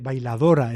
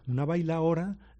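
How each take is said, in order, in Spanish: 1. La d entre vocales se pronuncia. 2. La d entre vocales se elimina. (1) "nadie dice bailadora" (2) "esa pronunciación relajada se ha impuesto como la única correcta"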